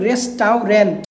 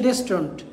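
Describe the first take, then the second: First: The middle is said as a spelled-out 'au'. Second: The middle is said with a plain 'u' sound. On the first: This helps you remember the spelling. "আমরা উচ্চারণ করব রেস্টাউরেন্ট" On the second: This is the real pronunciation. "আসল উচ্চারণ হচ্ছে রেস্টুরেন্ট"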